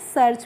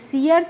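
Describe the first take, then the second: First: It is said as a single syllable, search. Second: It is split into two parts, sea and arch. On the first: The speaker calls it right. "सर्च पढ़ते हैं" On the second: The speaker calls it wrong. "सी अर्च नहीं पढ़ते हैं"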